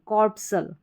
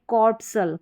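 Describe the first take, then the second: Both takes have the same delivery.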